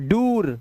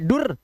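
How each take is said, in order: First: The vowel is a long oo sound. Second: The vowel is a short u sound. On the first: "ये दोनों ही नहीं है" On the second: "ये दोनों ही नहीं है"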